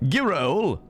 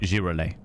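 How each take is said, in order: First: The word is said with plain English sounds. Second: The word is said with French-styled sounds. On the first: "as opposed to girole" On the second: "I'm going to say it as a French person"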